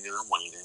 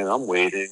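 First: Much softer, trailing off; fading away. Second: Said in the usual way. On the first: Real, not acted. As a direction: let the repeat die away to almost nothing. Repeated waiting, second fades.

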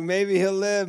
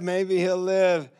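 First: Higher, eager hopeful cry; hopeful excitement. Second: Slow, higher, wondering hope; slowed hopeful echo. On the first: Staff freaking out over the leg, higher hopeful cry. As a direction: let hope burst out. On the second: Staff echoing the hope, slow higher wonder. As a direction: repeat it slower, savouring. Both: Retold or imitated.

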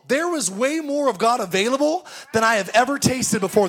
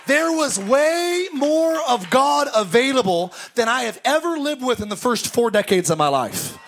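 First: Said in the usual way. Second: Preacher doubling down on "more"; emphatic restatement. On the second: Shown as a demonstration. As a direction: drive "more" home on the repeat. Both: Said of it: "repeated phrase".

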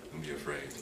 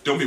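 First: Low, soft and gentle; calm them down softly; soft reassurance. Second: Said in the usual way. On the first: Shown as a demonstration. Preacher giving Jesus' words, softly reassuring.

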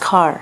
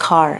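First: "car" said with an aspirated kh; aspirated car again. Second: "car" with a breathy kh at the start; aspirated car. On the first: Trainer repeats the aspirated k in "car" for the class. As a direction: breathe out on the k in "car". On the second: Trainer shows the aspirated k in "car" to students. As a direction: puff air on the k of "car". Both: Shown as a demonstration. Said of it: "क को ख बोलते हैं".

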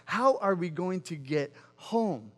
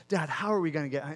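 First: Slow, spaced-out retold question; fixated, deliberate. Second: Quick retold child's question; fixated repeating. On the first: Son fixated on getting off the cliff, slow and deliberate. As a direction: spell out each word of the question slowly. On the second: Son to dad while stuck on the cliff, fixated repeating. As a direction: rattle it off, imitating a nagging kid. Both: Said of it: "he just became fixated on".

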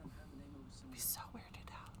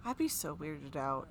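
First: Whispered under breath, slow. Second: Said in the usual way. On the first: Real, not acted. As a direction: whisper it to yourself. Whispered repeat.

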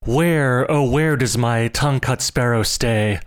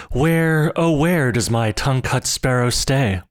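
First: A searching call into the woods; old man calls among the bamboo. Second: Higher, louder repeated call; old man cries louder for his sparrow. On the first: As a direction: call for the lost sparrow. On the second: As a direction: call out again, more urgently. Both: Acted. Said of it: "stopping at every clump of bamboo to cry".

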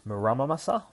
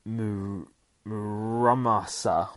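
First: Muramasa tried again with a rising question tune; questioning pronunciation. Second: Muramasa sounded out slowly, syllable by syllable; unsure pronunciation. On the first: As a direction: test Muramasa aloud with a higher, asking lift. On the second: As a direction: stretch out Muramasa as if unsure how to say it. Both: Shown as a demonstration. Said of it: "I fucking suck at these kind of words".

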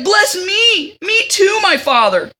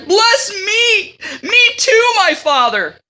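First: Mock wailing. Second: High, loud mock wail of a grown son; bitter wailing. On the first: Esau begs his father again, mock wailing. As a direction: beg like a spoiled brat. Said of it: "So he's like". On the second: Esau begs his father for a blessing, mock wailing. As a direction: wail like a spoiled child, begging. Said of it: "he shouted with intensely bitter groans".

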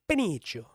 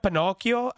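First: Pinocchio said pin-EE-cho; deliberate mispronunciation. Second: Said in the usual way. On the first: Shown as a demonstration. Showing friends their own version, Pinocchio as pin-EE-cho. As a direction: say Pinocchio with "eech" in place of "ok". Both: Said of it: "I like to say".

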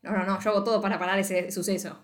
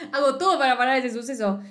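First: Said in the usual way. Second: Laughing while you say it; amused, giggling repeat. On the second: Real, not acted. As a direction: repeat the plan through giggles.

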